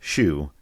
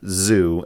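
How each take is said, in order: First: The name begins with a plain sh sound. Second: The name begins with a plain z sound. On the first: "it's not just Shu" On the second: "it's not just Zoo"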